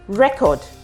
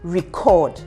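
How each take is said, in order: First: The stress is on the first syllable. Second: The stress is on the second syllable. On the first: It names a thing. "a record label, that's a noun" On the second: It names an action. "that's um, a verb"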